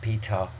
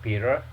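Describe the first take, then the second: First: The word ends open with no r sound. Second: The word ends with an audible r sound. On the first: "British accent, right? So they leave the word open" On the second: "American accent will be like bitter. They say r sound like er sound"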